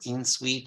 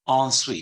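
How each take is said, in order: First: The first syllable sounds like English 'in'. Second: The first syllable has a French nasal 'on' sound. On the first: The speaker calls it wrong. "So it's not en suite or in suite" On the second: The speaker calls it right. "It's entrepreneur, ensuite"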